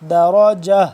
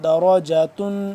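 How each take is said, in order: First: The word ends on a vowel, no tun. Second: The word ends with a final tun sound. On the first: The reading stops on this word. "वक्फ़न" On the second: The reading continues without stopping. "ता दो पेशतुन"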